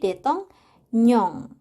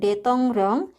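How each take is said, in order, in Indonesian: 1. Suku kata terakhir diawali dengan bunyi N. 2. Suku kata terakhir diawali dengan bunyi R.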